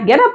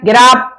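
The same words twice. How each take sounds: First: It is said in a warm, affectionate tone. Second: It is said in a sharp, angry tone. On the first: The speaker is waking someone gently with love. "प्यार से बोलना है" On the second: The speaker is annoyed that someone is still in bed. "गुस्से में बोलना है"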